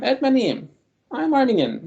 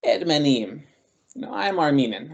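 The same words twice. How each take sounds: First: Ermeniyim said higher and louder, head up; confident imagined retort, said openly and proudly. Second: A small, apologetic Ermeniyim with a shrug; offhand, as if apologising for it; sheepish, shrugging admission. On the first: Pretend. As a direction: declare it with pride, nothing to hide. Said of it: "Why didn't I just tell him". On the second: Retold or imitated. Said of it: "sort of apologetic about it".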